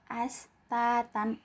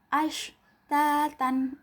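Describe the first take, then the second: First: It begins with a plain 's' sound. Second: It begins with a clear 'sh' sound. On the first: The speaker calls it wrong. "cuma dibaca as. ... ini kurang tepat ya" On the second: The speaker calls it right. "harus ash"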